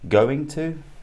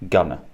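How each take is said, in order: First: Both words are said fully and separately. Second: The words are merged into a reduced form. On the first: "So we have going to" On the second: "going to becomes gonna"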